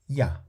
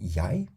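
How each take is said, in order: First: The word is weakened and shortened. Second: The word is full, with a longer vowel. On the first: The pronoun is not emphasized. "weakened and shortened" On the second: The pronoun is given particular emphasis. "instead of saying jij"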